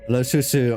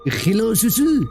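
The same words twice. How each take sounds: First: It is said in the speaker's normal voice. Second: It is said in a put-on French accent.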